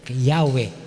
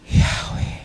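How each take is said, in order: First: The word is said without an audible breath. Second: The word is said with an audible breath. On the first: "walang hinga" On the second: "May kasamang paghinga"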